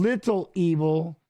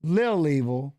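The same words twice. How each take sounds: First: "Little Evil" slow, with "Little" in full. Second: "Lil Evil" with "Lil" as one syllable; shortened "Lil". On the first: Explaining the original nickname, "Little Evil" said in full. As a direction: pronounce both syllables of "Little" in "Little Evil". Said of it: "So it went from Little Evil to". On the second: Explaining the shortened nickname, "Lil Evil" with one-syllable Lil. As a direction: drop the middle of Little: "Lil Evil". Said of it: "to L I L". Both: Shown as a demonstration.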